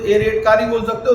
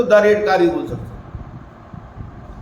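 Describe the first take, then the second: First: Said in the usual way. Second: Slow, with द drawn out and stressed; stress on the article. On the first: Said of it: "अब red car होती तो क्या बोलते?". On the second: Shown as a demonstration. Teacher showing students the definite article, slow and stressed. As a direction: lean slowly on द to set it apart. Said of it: "द red car माने वो definite".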